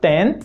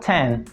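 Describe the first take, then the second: First: The T is said without a puff of air. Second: The T is said with a puff of air. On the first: The speaker calls it wrong. "parar de falar ten" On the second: The speaker calls it right. "começar a falar ten"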